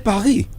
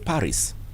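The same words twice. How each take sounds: First: The name is said with French sounds. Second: The name is said with English sounds. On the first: "if you can speak French" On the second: "It is the English pronunciation"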